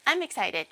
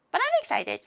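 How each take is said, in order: First: Said in the usual way. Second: Sudden high, bright burst of excitement; excited. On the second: Real, not acted. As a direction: squeal it with glee. Repeats she is excited.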